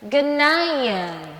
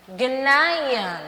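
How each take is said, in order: First: Ghanaian said as /genaian/, stress on -nai-; English word. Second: Ghanaian repeated, same English sounds, stress on -nai-; repeat for class. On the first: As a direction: model Ghanaian slowly for students. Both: Shown as a demonstration. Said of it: "A mesma pronúncia".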